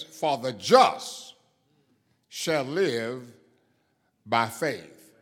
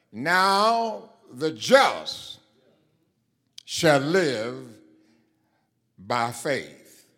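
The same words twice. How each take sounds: First: "for the just shall live by faith" read slowly and louder, with the weight landing on "faith"; a preacher marking "faith" as the key word; stress on faith. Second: "Now the just" drawn out very slowly and loudly, then "live" leaned on with weight; a preacher pointing the congregation to the word "live"; stress on live. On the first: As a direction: hold each phrase, then let "faith" carry the point. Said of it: "the stress of that passage is in the word faith".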